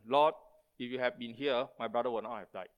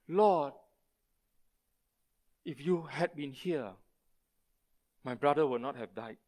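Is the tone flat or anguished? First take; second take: flat; anguished. First: It is said as a flat, plain statement. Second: It is said with anguish in the voice.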